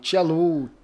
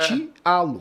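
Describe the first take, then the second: First: The name ends with an 'oo' vowel. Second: The name ends with a clear 'o' vowel. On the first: People assume the name has a foreign pronunciation. The speaker calls it wrong. "essa ideia do Tialu" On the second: The name is said just as it is written. The speaker calls it right. "a verdade se pronuncia como se lê"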